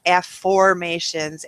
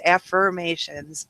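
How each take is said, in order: First: "afformations" said slowly, with "form" in place of "firm"; afformation pronunciation. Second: Said in the usual way. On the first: Shown as a demonstration. Host showing listeners the made-up word, spelling out "afformations". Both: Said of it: "an afformation is actually a made-up word".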